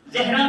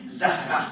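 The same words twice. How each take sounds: First: زہرا said as "Zehra", with an e after z; first vowel of زہرا turned to "eh"; wrong pronunciation. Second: زہرا said as "Zahra", with an a after z; correct pronunciation. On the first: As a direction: say زہرا the colloquial way, "ZEH-ra". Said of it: "pronunciation عربی لحاظ سے صحیح نہیں". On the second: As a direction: say زہرا carefully, first vowel an open a. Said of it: "اس کا صحیح pronunciation ہے". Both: Shown as a demonstration.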